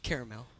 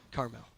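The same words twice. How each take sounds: First: "caramel" with a middle syllable, CARE-uh-mel; "caramel" opening on a CARE sound; CARAMEL pronunciation. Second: "Carmel" in two syllables, CAR-mel; low, soft "Carmel", said as CAR-mel; CARMEL pronunciation. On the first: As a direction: say "caramel" in three syllables, like the candy. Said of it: "Not caramel". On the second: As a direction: open "Carmel" on a CAR sound, no middle vowel. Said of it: "Not caramel, Carmel". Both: Shown as a demonstration.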